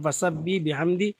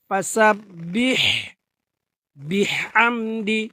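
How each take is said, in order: First: The final h of the first word is dropped. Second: The final h of the first word is clearly pronounced. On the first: The speaker calls it wrong. "আসলে এটা বাংলা উচ্চারণ" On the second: The speaker calls it right. "তাহলে কিভাবে পড়তে হবে?"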